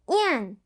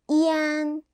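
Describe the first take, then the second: First: The pitch falls sharply from high. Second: The pitch stays high and level.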